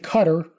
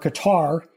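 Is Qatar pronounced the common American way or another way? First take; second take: another way; American. First: Qatar is pronounced in a non-American way. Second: Qatar is pronounced the common American way.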